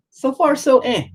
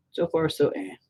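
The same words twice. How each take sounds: First: Very high, loud mock verdict; cartoonish high-pitched noncommittal quip; silly squeaky voice. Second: Moderately high, unforced silly voice; lightly high-voiced noncommittal quip; milder squeaky repeat. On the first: Same phrase squeaked, then repeated quietly. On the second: Same phrase again, softer.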